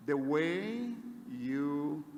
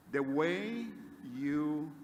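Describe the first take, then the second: No difference in how they are said.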